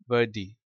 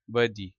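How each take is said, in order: First: Said in the usual way. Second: वर्दी with the R dropped, British-style; silent R, British. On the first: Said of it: "आर silent हो जाता है". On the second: Shown as a demonstration. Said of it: "आर silent हो जाता है British accent में". (वर्दी, British लहजे में, आर साइलेंट)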